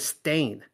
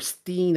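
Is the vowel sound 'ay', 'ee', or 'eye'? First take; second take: ay; ee. First: The vowel sounds like 'ay', rhyming with stain. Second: The vowel sounds like 'ee', rhyming with scene. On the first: "as in they stain their pants" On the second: "as in scene"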